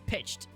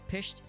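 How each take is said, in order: First: The word has a 'tch' sound before the ending. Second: The word has a plain 'sh' sound before the ending. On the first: The speaker calls it right. "Add a T and a C and an H in there. Take away the S" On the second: The speaker calls it wrong. "P I S H E D"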